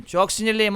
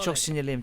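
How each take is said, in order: First: Louder, higher with stress on sinirliyim; angry. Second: Said in the usual way. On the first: Real, not acted. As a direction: say it again now actually angry.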